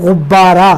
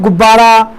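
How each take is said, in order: First: It starts with a throaty gh sound. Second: It starts with a plain g sound. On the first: "Urdu में हम जब बोलेंगे तो गुब्बारा, तो थोड़ा उससे निकलेगा" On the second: "हिंदी में तो हमने कह दिया गुब्बारा, तो गे का इस्तेमाल कर दिया"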